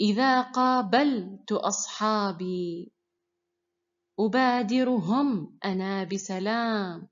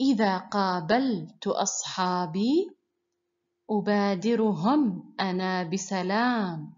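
The two takes are said the same way.

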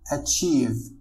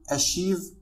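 First: The middle consonant is a 'ch' sound. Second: The middle consonant is not a 'ch' sound. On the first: The speaker calls it right. "ولكن نقول achieve. فch تنطق على شكل ch" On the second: The speaker calls it wrong. "لا نقول achieve"

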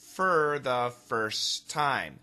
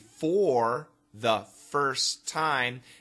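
First: The phrase is said quickly with linked words. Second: The phrase is said slowly and carefully. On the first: "If we say it quickly" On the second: "listen carefully"

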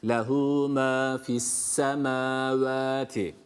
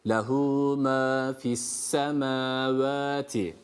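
Both takes have the same delivery.

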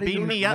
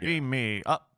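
First: The voice is pitched high, in the head. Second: The voice is pitched low and deep. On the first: "you got walking in your head" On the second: "you gotta be lower for Shatner"

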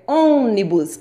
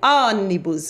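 First: The first vowel is closed. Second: The first vowel is open. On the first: The speaker calls it right. "é ônibus" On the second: The speaker calls it wrong. "Se eu colocasse um acento agudo"

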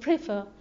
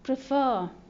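First: The stress is on the first syllable. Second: The stress is on the second syllable. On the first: The speaker calls it wrong. "ما تقول prefer" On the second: The speaker calls it right. "التشديد على المقطع الثاني"

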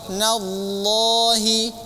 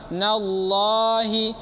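Both takes have the same delivery.

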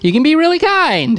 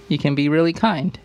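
First: It is read in an excited, exclamatory way. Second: It is read in a flat, plain way.

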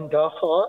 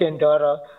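First: The second syllable begins with an h sound. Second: The second syllable does not begin with h.

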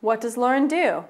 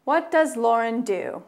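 First: It is said at a faster pace. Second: It is said at a slower pace.

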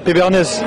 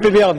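First: The name ends with a clear final 'ès' sound. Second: The name ends without a final 'ès' sound. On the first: The speaker calls it right. "Sur le E, le dernier E, accent grave" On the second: The speaker calls it wrong. "Pas Péberne"

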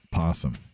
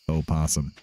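First: The word starts directly with the P sound. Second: A full separate O sound comes first. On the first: The speaker calls it right. "everyone I know just says possum" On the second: The speaker calls it wrong. "Spelled with an O in the front"

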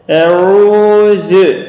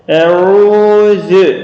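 First: The u vowel is held long. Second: The u vowel is held long.

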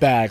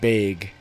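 First: Bag is said with a general American vowel. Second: Bag is said with a Minnesota regional vowel. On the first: "instead of bag" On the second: "I had a friend from Minnesota that said Bag"

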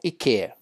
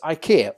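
First: The name is said the Swedish way. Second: The name is said in the usual English way.

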